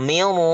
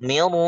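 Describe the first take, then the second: The two takes are said the same way.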